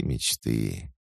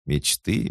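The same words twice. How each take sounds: First: Wistful sigh. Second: Said in the usual way. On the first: Shown as a demonstration. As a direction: let it fade with longing. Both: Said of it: "если бы можно было".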